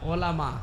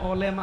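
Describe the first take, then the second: First: The middle vowel sounds like 'a'. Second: The middle vowel sounds like 'e'. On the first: The speaker calls it right. "আলেম ওলামা" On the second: The speaker calls it wrong. "আবার আলেম ওলেমা হয় না"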